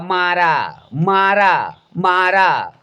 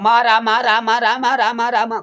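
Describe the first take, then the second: First: The words are said slowly and separately. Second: The words are said quickly, running together.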